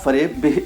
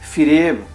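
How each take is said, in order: First: The first syllable has an 'a' vowel. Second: The first syllable has an 'i' vowel. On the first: This is the pronunciation used in Urdu. "Urdu में आने के बाद ये ... फ़रेब" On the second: This is the original Persian pronunciation. "ज़ेर लगाकर पढ़ा जाता है"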